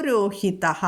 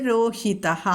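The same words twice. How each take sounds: No difference in how they are said.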